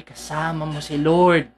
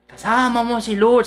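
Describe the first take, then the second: First: Reassuring. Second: Said in the usual way. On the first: Shown as a demonstration. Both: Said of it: "sinasabi ko lang lagi".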